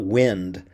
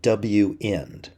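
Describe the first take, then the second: First: It is said like the word wind. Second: It is said as W plus end. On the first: The speaker calls it wrong. "I've been mispronouncing it. It's not wind" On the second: The speaker calls it right. "but W-end"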